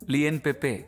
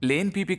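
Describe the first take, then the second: First: The name sounds like lee-on pep-pay. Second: The name sounds like lane pee-pee. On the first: The speaker calls it right. "ముందు అమ్మే వస్తువు పేరు సరిగ్గా పలకడం నేర్చుకో" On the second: The speaker calls it wrong. "కాదురా"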